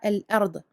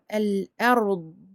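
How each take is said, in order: First: The final consonant is released quickly and cut short. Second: The final consonant is held with a sustained sound. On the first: The speaker calls it wrong. "et non pas al-ard, ard. Non, ça c'est faux" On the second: The speaker calls it right. "attention à garder donc euh, la durée de ce, de ce dad sakin"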